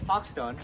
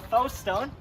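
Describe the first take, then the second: First: The first word ends with a ks sound. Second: The first word ends in a plain vowel.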